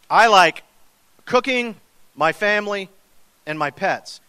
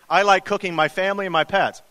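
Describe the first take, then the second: First: There is a pause after "cooking". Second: There is no pause after "cooking".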